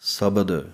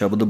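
First: The word begins with a plain s sound. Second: The word begins with an sh sound. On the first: The speaker calls it right. "ਇਹ ਹੈ ਆਮ ਸੱਸਾ 35 ਅੱਖਰਾਂ ਵਾਲਾ" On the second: The speaker calls it wrong. "ਗਲਤੀ ਅਸੀਂ ਇਹ ਕਰਦੇ ਹਾਂ ਕਿ ਉੱਥੇ ਵੀ ਅਸੀਂ ਸ਼ਬਦ ਬੋਲ ਦਿੰਦੇ ਹਾਂ"

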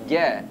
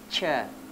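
First: The consonant is a clear voiced j sound. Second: The consonant is a splashy ch sound. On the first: The speaker calls it right. "Tapi ja" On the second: The speaker calls it wrong. "tidak boleh cha"

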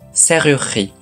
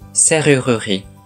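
First: The middle vowel is dropped. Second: The middle vowel is clearly pronounced. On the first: "真ん中のうを落とせば" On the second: "うを読めば"

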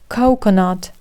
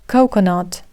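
The two takes are said the same way.

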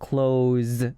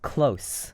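First: The word ends in a voiced z sound. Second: The word ends in a voiceless s sound. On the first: It means to shut something. "닫는다는 의미의 close 울림 소리가 있는 z" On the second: It means near. "z가 아니고요"

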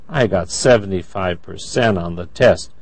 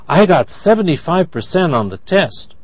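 First: The voice sounds disappointed. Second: The voice sounds happy. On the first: The speaker hoped for a better score. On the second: The speaker is pleased with the score. "That's happy"

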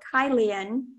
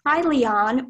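First: The last syllable ends with a weak 'un' sound. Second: The last syllable ends with a full 'on' sound. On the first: "Kylion or Kylian are the pronunciations" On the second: "Kylion or Kylian are the pronunciations"

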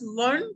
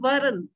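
First: The r and n are joined without a vowel. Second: A short vowel separates the r and n. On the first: The word refers to the four social classes. The speaker calls it wrong. "We can also pronounce it as Varn, which would imply the Chatush Varn concept" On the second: The word means accepting or imbibing. The speaker calls it right. "we can also pronounce it as Varan, which is accepting"

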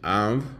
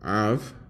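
First: The v sound has air through the nose. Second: The v sound has air through the nose.

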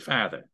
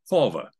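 First: It is said in an Australian accent. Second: It is said in a middle-class London accent. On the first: "somebody from Australia would say father" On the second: "somebody from the middle class in London would say father like this"

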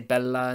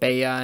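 First: The double L is said as an L sound. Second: The double L is said as a Y sound. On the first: The speaker calls it right. "you have to say bella" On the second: The speaker calls it wrong. "the double L is not the Y sound"

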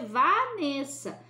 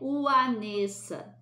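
First: The name begins with a V sound. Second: The name begins with a U sound. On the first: The speaker calls it right. "a gente lê Vanessa" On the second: The speaker calls it wrong. "a gente não lê Uanessa"

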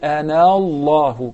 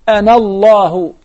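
First: The vowel after the n is drawn out. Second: The vowel after the n is short. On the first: The speaker calls it wrong. "you don't say Anallahu" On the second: The speaker calls it right. "you snatch it, you do not prolong it"

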